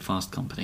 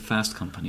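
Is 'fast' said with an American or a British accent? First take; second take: British; American. First: Fast is said with a British vowel. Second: Fast is said with an American vowel. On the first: "I didn't say Fast Company" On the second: "I said Fast Company like that"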